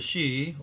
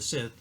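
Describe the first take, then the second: First: The word sounds like 'she', with no 'th'. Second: The word ends with a 'th' sound.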